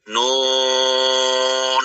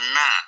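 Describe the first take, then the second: First: It is read as a full letter name. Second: It is read as a short open syllable. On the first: The speaker calls it right. "ini dibaca nun ya" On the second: The speaker calls it wrong. "bukan na"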